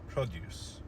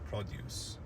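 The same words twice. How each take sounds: First: The stress is on the first syllable. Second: The same.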